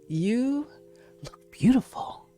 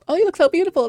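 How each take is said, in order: First: It sounds sincere and emphatic. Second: It sounds offhand and casual.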